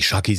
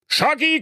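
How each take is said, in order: First: Said in the usual way. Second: „Schacki“ hoch gerufen; König ruft. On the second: Acted. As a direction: ruf die Tochter herbei. (der König ruft seine Tochter zur Trauung)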